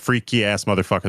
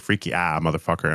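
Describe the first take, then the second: First: The word after freaky ends with an s sound. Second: The word after freaky is an open ah vowel. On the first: "instead of saying" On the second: "they say freaky ah"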